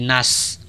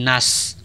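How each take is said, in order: First: The vowel is thin and the s is thin. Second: The vowel is thin and the s is thin.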